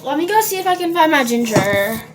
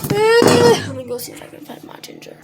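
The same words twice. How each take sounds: First: Said in the usual way. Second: Much higher, singsong "Let me go see if I can find my ginger."; playful high-pitched "Let me go see if I can find my ginger."; high silly voice. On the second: Pretend. Repeated line, sung high.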